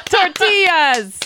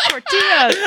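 First: High, loud, and very slow; slow drawn-out shout. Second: Shouting. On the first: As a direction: stretch the shout way out. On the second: Random shouted exclamation. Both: Pretend.

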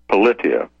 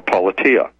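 First: "politia" said po-LIT-ee-a, stress on the short i, falling; "politia" as po-LIT-ia, falling at the end; first pronunciation. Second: "politia" said PAH-luh-tee-a, stress on the first syllable, rising; "politia" as PAH-la-tia, lifting at the end; alternative pronunciation. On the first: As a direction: try "politia" with a light LIT in the middle. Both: Shown as a demonstration. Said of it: "or politia".

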